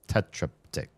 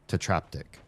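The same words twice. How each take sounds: First: The stress is not on the second syllable. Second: The stress is on the second syllable. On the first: The speaker calls it wrong. "No, that wouldn't work" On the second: The speaker calls it right. "It would have to be the, the second syllable"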